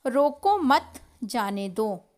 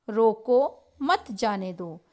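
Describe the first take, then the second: First: "रोको मत" together, brief break, then "जाने दो"; loud, slow, break the phrase right after मत; group "रोको मत" as one command, pause before "जाने दो". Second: "रोको" alone, brief break, then "मत जाने दो"; loud, slow, break the phrase right after रोको; pause after रोको. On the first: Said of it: "पहले वाक्य में है, "रोको मत". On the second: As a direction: stop on "रोको", then join "मत जाने दो" as one command. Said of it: "दूसरे वाक्य में है". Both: Shown as a demonstration.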